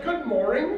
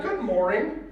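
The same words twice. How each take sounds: First: Lightly mocking, with a lift on the last word. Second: Said in the usual way. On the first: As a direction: echo the greeting with a touch of mockery. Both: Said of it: "She was mocking him".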